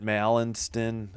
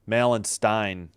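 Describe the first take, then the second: First: The last syllable has no 'eye' vowel. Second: The last syllable rhymes with 'stein'. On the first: The speaker calls it wrong. "I think I'm butchering that one" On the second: The speaker calls it right. "as in like a beer stein"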